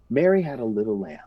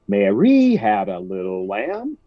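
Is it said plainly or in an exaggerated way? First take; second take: plainly; exaggerated. First: It is said simply and naturally. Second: It is said in an exaggerated, performed way.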